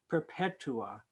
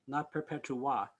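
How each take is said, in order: First: The final syllable is not stressed. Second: The final syllable is stressed. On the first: The speaker calls it right. "really, perpetua" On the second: The speaker calls it wrong. "they shouldn't be accenting ah"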